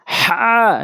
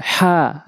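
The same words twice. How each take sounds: First: হা squeezed from mid-throat, pitched high; pressed throat H. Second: হা from the start of the throat, unpressed; plain glottal হা; light throat H. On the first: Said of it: "এটা চাপ দিয়ে হলকের মাঝখান থেকে". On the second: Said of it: "হলকের শুরু থেকে". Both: Shown as a demonstration.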